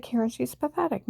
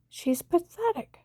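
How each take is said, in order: First: Said in the usual way. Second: Higher, slow "She's pathetic" with scorn; contemptuous, drawn-out "pathetic"; scornful repeat. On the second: Retold or imitated. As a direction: stretch out "pathetic" in disgust, up high.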